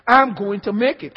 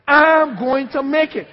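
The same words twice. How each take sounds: First: Said in the usual way. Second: Slow, louder declaration for the church to repeat; declaring it. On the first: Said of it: "Can I hear that with you?". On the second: Shown as a demonstration. Preacher leads congregation in repeating, slow louder proclamation. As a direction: proclaim it slowly, leading the room. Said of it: "Say that with me".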